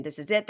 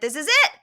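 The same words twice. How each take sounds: First: Said in the usual way. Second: High, loud, rising declaration; acted final outburst. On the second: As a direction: raise it sharply as her dramatic exit line. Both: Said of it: "saying she never wants to see him again".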